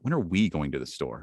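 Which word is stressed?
we. The stress falls on the word we. The question is about who is going. "Now it's about us"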